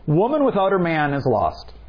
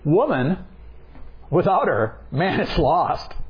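First: 'Her man' is said together as one phrase. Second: A pause splits 'her' from 'man'. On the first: "Here's the first one" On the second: "let's change the pause in it"

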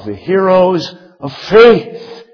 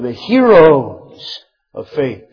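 First: The stress falls on the word faith. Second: The stress falls on the word heroes. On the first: Faith is the focus of the chapter. The speaker calls it right. "But we ought to say it this way" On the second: The people themselves are the focus. The speaker calls it wrong. "we emphasize in the description of that chapter the heroes"

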